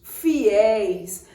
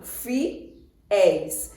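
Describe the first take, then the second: First: Said in the usual way. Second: "fiéis" split into fi, then éis with a gap; syllable by syllable. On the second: Shown as a demonstration. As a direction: break "fiéis" in two: fi... éis. Splits word to count syllables. ("fiéis" separado em sílabas: fi... éis)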